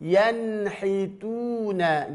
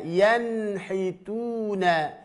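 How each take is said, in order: No difference in how they are said.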